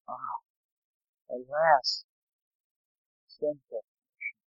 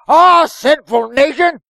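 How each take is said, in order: First: It is said in a pained, pitying tone. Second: It is said in an angry, condemning tone.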